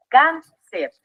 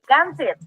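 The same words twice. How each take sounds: First: "Cáncer" en dos sílabas sueltas, cán y cer; separado en sílabas. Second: Said in the usual way. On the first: Shown as a demonstration. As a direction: divide "Cáncer" con una pausa entre sílabas. ("Cáncer" silabeado para enseñar) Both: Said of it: "Vamos a dividirla en sílabas".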